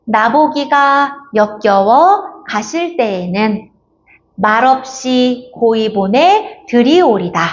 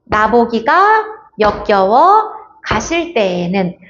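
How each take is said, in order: First: Very slow, pauses only after 나보기가, 역겨워 and 가실 때에는; breaking by meaning units. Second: Slow, pausing after 나보기가, 역겨워, 가실 and 때에는; breaking at spaces. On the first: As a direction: keep "가실 때에는" whole as one chunk. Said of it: "의미 단위로 끊어 읽는 겁니다". (의미 단위로 끊어 천천히 읽기) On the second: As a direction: chop "가실 때에는" apart word by word, wrongly. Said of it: "가실 때는 아니에요". (띄어쓰기마다 끊어 읽기) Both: Shown as a demonstration.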